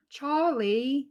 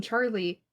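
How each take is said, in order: First: Charlie with a higher, louder rising voice; Charlie the Unicorn voice. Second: Said in the usual way. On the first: Shown as a demonstration. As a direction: sing out Charlie like the unicorn cartoon. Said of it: "Charlie the Unicorn stuff". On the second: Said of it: "saying Charlie, I go".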